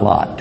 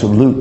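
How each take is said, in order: First: The name is said in its English form. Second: The name is said in its original form. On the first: The speaker calls it wrong. "not Lot. That's English" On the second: The speaker calls it right. "his name's pronounced Lut"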